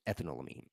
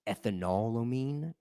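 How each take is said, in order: First: It does not split into ethanol plus amine. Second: It sounds like ethanol followed by amine. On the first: "it's easier for me to pronounce it ethanolamine" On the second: "because it's like ethanol and then amine"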